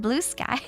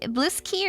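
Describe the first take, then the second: First: The name ends with a 'sky' sound. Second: The name ends with a 'ski' sound. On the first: "blue sky is boring" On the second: "like blues and then key"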